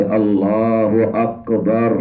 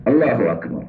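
First: "اکبر" said with a deep-throat q for k, drawn out; slow "اللہ اکبر", the ک turned into a heavy ق; mispronounced big qaf. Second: Said in the usual way. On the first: Shown as a demonstration. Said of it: "یہ بڑا قاف ہے جس کے ساتھ". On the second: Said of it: "یہ بڑا قاف ہے".

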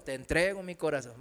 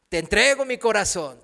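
First: Te entrego mi corazón echoed quickly, much softer and lower; mock insincere echo; rushed mumbled repeat. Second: Said in the usual way. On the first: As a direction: rattle off te entrego mi corazón without feeling. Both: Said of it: "di con todo tu corazón".

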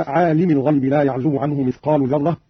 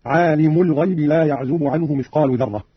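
First: Said in the usual way. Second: عالم ending in -u, "alimu"; nominative mim. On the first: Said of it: "قرأ قالون برفع الميم". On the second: Shown as a demonstration. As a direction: put a damma on the mim of عالم. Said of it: "قرأ قالون برفع الميم هكذا". (عالم برفع الميم)

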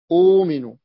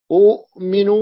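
First: أؤمن as uuminu, long uu without a catch; hamza turned waw. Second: أؤمن as u'minu, glottal catch after short u; original two-hamza form. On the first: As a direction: glide through a long uu in أؤمن. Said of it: "واوا لتتناسب مع الضم". (أؤمن بواو مدّ) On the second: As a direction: stop after the u, then minu in أؤمن. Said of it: "ساكن بعد ضم". (أؤمن بتحقيق الهمزة الساكنة) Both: Shown as a demonstration.

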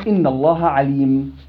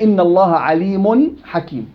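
First: عليم said as 'alim, stopping on a bare m with no nun; pausal form. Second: عليم said as 'alimun, with the tanween nun voiced before حكيم; nunation in joined reading. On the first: Teacher shows students the pause form, no nun. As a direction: stop on عليم, dropping the tanween ending. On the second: Teacher shows students the joined reading, nun clearly sounded. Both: Shown as a demonstration. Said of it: "وقفًا".

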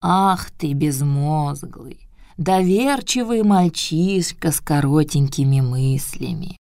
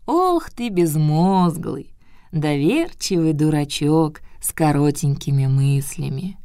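First: Put-on slow old scolding voice; old turtle scolding. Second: Put-on slow, sighing old scold; old turtle scolding. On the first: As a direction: scold slowly like an old grandmother. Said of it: "сказала Тортила". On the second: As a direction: drag out the scolding sigh. Turtle repeats her scolding.

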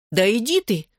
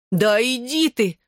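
First: Higher-pitched "get out of here!"; astonished exclamation. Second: High, drawn-out disbelief; excited exclamation. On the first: Friend hears she was at his house, exclaiming. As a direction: exclaim it in quick disbelief. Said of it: "воскликнула подруга". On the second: Friend hears about the kiss, exclaiming excitedly. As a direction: stretch it out high, thrilled and incredulous. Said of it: "громче и возбуждённее повторила она". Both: A narrator's reading.

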